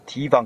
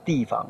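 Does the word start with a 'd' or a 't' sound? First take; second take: t; d. First: The word starts with a 't' sound. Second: The word starts with a 'd' sound. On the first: "平常我们说提防" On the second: "可是念成地防"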